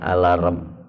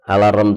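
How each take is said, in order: First: It is said with an English pronunciation. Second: It is said with an Indonesian pronunciation. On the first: This is the original way to read it. "Kalau dibaca aslinya apa? ... cara bacanya alarm" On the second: This is how local people say it. "Alarm itu bahasa kita ya"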